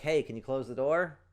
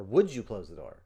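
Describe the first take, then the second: First: "can" said lightly, "door" pushed a bit; a loose, offhand "can you" request; casual ask. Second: "Would" pushed louder with a falling tone; firm polite request. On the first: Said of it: "'Cause you didn't ask them to close the door". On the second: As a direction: ask clearly with stress on "Would". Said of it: "A different request". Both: Shown as a demonstration.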